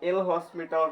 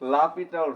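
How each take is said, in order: First: It starts el hos, with an s sound. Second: It starts la pi, with no s sound. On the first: The speaker calls it wrong. "বাকি যে যেটাই বলুক না কেন ওটা ভুল" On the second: The speaker calls it right. "এটার আসল নাম হচ্ছে লাপিটাল রুল। এটাই কারেক্ট।"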